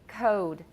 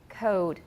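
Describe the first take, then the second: No difference in how they are said.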